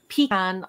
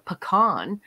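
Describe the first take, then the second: First: Pecan said "PEE-can"; variant pronunciation. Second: Pecan said "puh-KAHN"; Southern pronunciation. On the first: Comparing regional variants of pecan, PEE-can pronunciation. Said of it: "look into the etymology of". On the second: Comparing regional variants of pecan, puh-KAHN pronunciation. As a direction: stress a long KAHN in pecan. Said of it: "folks in the South are saying it". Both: Shown as a demonstration.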